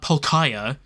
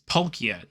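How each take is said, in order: First: The name is said with three syllables. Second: The name is said with two syllables. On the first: The speaker calls it wrong. "not Palkaya" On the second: The speaker calls it right. "It's not three syllables. It's two"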